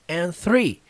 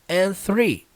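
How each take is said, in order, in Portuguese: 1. O D no final de 'and' não é pronunciado. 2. O D no final de 'and' não é pronunciado.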